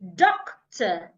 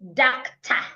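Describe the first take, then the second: First: The final vowel is said with a small mouth. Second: The final vowel is said with a wide-open mouth. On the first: The speaker calls it right. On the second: The speaker calls it wrong. "do not open your mouth wide"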